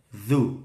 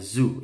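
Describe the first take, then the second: First: It begins with a soft 'th' sound. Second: It begins with a buzzing 'z' sound. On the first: The speaker calls it right. "Dzu bukan zu ya, hati-hati" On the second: The speaker calls it wrong. "bukan zu"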